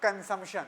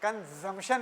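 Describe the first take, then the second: No difference in how they are said.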